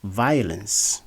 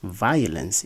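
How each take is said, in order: First: The first syllable is a three-part vowel like 'ire'. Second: The same.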